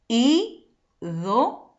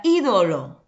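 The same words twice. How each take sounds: First: "ídolo" slowly split into í, do, lo; half-speed "ídolo": í... do... lo; syllable by syllable. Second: Said in the usual way. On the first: Shown as a demonstration. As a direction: sound out "ídolo" with a pause after each syllable. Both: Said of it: "Separando tenemos".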